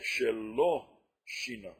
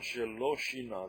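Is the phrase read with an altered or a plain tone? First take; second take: altered; plain. First: It is read in a noticeably altered tone. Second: It is read in the ordinary, plain tone. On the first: He changed the no. "I'm going to read it with a different tone" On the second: He did not change anything. "That's one way you could read it"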